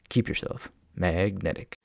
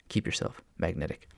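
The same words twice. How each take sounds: First: It is said in a put-on puppet voice. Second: It is said in the speaker's ordinary voice.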